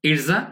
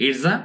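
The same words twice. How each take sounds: The two takes are said the same way.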